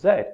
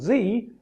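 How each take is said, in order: First: The letter is said the non-American, British way. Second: The letter is said the American way.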